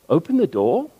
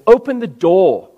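First: It is said as a questioning remark. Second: It is said as an irritated exclamation. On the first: The speaker is asking whether the door should be opened. "It's a question" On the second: The speaker is annoyed and demands it at once. "That's an exclamation, and it's an irritated exclamation"

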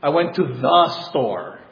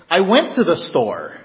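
First: The word the is stressed. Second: The word went is stressed. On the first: It was the intended store. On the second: The trip has already happened.

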